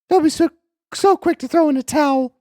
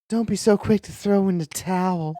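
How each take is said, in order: First: It is read in a mismatched character voice. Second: It is read in the character's usual voice. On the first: The speaker calls it wrong. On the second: The speaker calls it right.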